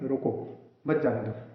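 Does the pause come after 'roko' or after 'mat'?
after roko. The pause comes right after the first word. Stop the person; don't let them leave. "अगर हम किसी को रोकना चाहते हैं तो अपन क्या बोलेंगे?"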